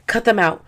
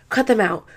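Both takes have the same delivery.

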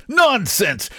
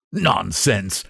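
First: High-pitched, exclaimed objection; indignant protest. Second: Dismissive, near usual pitch; mild protest. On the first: Painter rejecting his friend's percentage idea, high indignant protest. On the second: Painter brushing off his friend's idea, mild protest. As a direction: wave it away without raising the voice. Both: A narrator's reading.

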